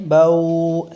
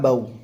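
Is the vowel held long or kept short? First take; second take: long; short. First: The vowel is drawn out and held long. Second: The vowel is soft and kept short. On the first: The speaker calls it wrong. "इसको हमें लॉन्ग नहीं करना है, बाऊ ऐसे नहीं करना है" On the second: The speaker calls it right. "Softly भी पढ़े जा रहे हैं और जल्दी भी"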